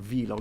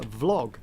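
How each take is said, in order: First: The word is not said to rhyme with blog. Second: The word is said to rhyme with blog. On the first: The speaker calls it wrong. "it's not a vlog" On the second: The speaker calls it right. "pronounce the other one the same way"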